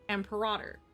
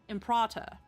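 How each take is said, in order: First: It is said in an American accent. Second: It is said in a British accent. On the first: "if you go in an American accent" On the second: "But if it was in British"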